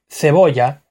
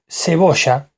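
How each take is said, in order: First: Cebolla with th for the c; "cebolla" said "theboya", Spain style; Castilian pronunciation. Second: Cebolla as "seboSHA"; Argentine pronunciation. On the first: Showing that only pronunciation changes, Castilian pronunciation. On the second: Showing that only pronunciation changes, Argentine pronunciation. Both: Shown as a demonstration. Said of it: "lo único que cambia es en la pronunciación".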